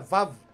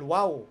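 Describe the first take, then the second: First: The word begins with a V sound. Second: The word begins with a W sound. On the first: This is the modern pronunciation. "Sa modern pronunciation, yung Waw naging Vaw. O Vav pala" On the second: This is the original pronunciation. "Pero sa original"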